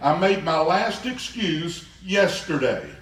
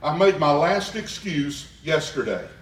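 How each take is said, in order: First: It is said forcefully, with strong conviction. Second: It is said plainly, without extra force.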